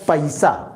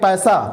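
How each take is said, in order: First: The word is said slightly drawn out. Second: The word is said short and plain.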